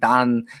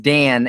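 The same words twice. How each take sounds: First: The name is said with a Turkish accent. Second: The name is said with a native English accent. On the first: The speaker calls it wrong. "she's like Dan" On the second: The speaker calls it right. "it's Dan"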